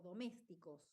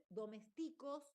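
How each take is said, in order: First: Said in the usual way. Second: "domésticos" with the stress shifted off MÉS; misplaced stress. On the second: Shown as a demonstration. Teacher showing a tilde error, "domésticos" wrongly stressed. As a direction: move the accent in "domésticos" to the wrong syllable. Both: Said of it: "Cambié de lugar la tilde".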